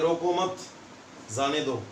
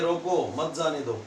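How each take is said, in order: First: There is a pause after "मत". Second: There is a pause after "रोको".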